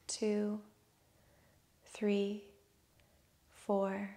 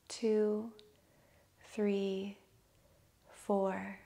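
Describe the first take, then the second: No difference in how they are said.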